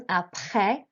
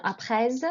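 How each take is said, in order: First: Said in the usual way. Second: Après with a final S sounded, like aprez; wrong, S sounded. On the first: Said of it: "not après". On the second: Shown as a demonstration. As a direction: deliberately sound the S at the end of après. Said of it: "You don't pronounce the S at the end".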